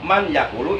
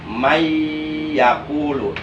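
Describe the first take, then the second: First: The n is pronounced clearly before the y. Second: The n merges into a nasalized, held y. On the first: The speaker calls it wrong. "itu salah menurut ilmu tajwid karena enggak diidgham" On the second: The speaker calls it right. "bacaan yang benar mayyakulu cuma didengungkan"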